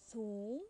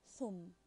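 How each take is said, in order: First: Thum with a long oo, rising; long vowel. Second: Thum with a short u, falling; short vowel. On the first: Teacher giving second example, Thum with long vowel. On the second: Teacher giving second example, thum with short vowel. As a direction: keep the u in thum brief. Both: Shown as a demonstration. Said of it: "Then the second example".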